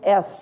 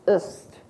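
First: The suffix has a full, clear vowel. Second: The suffix has a reduced schwa vowel. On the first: The speaker calls it wrong. "The suffix isn't est" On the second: The speaker calls it right. "it's ist"

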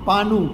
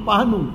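The two takes are said the same way.

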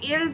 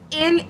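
First: The final s sound is pronounced. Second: The final s sound is silent. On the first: The speaker calls it wrong. "It should be ills" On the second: The speaker calls it right. "The pronunciation is ill"

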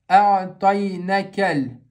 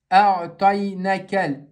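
No difference in how they are said.

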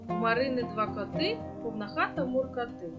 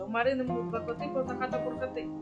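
First: The line is read at a fast pace. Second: The line is read at a faster pace. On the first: "Тепер читаємо швидше" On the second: "І ще швидше"

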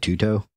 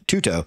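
First: The name is said hesitantly, like a question. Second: The name is said firmly and confidently. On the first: "I'm going to butcher this name" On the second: "Say with confidence"

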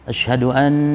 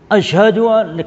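First: It is said quietly. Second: It is said loudly.

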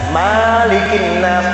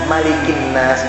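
First: The first vowel of malikin is long. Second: The first vowel of malikin is short. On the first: The speaker calls it wrong. "jangan ... Salah itu" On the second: The speaker calls it right.

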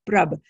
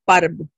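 First: The p and r form a cluster, no vowel. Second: A vowel comes between the p and r. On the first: The speaker calls it right. "this is prr, prb, prab" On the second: The speaker calls it wrong. "we will say parb, parb, right? And that doesn't sound right"

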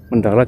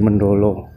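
First: The name ends with an 'a' vowel. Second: The name ends with an 'o' vowel. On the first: This is the standard form of the name. "Mendala jadi Mendolo" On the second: This is how local Javanese speakers say it. "Kalau orang Jawa kan A dibaca O ya"

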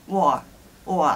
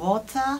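First: The T in the middle is dropped. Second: The T in the middle is clearly pronounced. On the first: This is casual everyday speech. "割と喋り言葉の中ではwar or っていう風に言ってしまう" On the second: This is careful speech, as in a shop. "すごいはっきりとT を言う"

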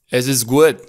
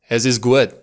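First: Some consonants are softened or dropped. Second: Some consonants are softened or dropped.

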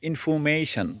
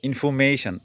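Both takes have the same delivery.

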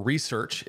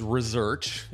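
First: It is said with an American pronunciation. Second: It is said with a Canadian pronunciation. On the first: "if you're from the US" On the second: "if you're from Canada"

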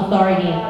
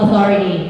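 First: Spoken in a relaxed American accent, soft T. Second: Spoken in a relaxed American accent, soft T.

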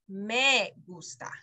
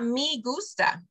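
First: The vowel in 'me' is an 'eh' sound. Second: The vowel in 'me' is not an 'eh' sound. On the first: The speaker calls it right. "What sound does the letter E make? A-E" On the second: The speaker calls it wrong. "it's not me gusta"

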